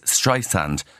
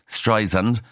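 First: The middle consonant is a hissing s sound. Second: The middle consonant is a buzzing z sound. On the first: The speaker calls it right. "officially it is [name]" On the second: The speaker calls it wrong. "a load of people say Streisand with a Z"

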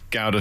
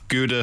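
First: Gouda is said with a non-American pronunciation. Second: Gouda is said with an American pronunciation. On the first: This is how everyone else says it. "for everyone else" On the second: This is how Americans say it. "for the Yanks"

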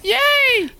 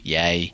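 First: The word sounds lively and exuberant. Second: The word sounds flat and sarcastic. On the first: The speaker calls it right. "That's much better" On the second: The speaker calls it wrong. "That sounded really sarcastic"

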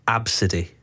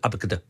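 First: The name is pronounced as abcde. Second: The name is pronounced as abacada. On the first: The speaker calls it right. "but it's actually Abcde" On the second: The speaker calls it wrong. "I was saying it was abacada"

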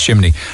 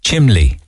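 First: The middle consonant is an n sound. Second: The middle consonant is an l sound. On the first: "you don't know how to pronounce chimney" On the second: "It's Cork, isn't it? Chimley"

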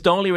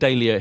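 First: It is said with an American pronunciation. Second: It is said with a British pronunciation.

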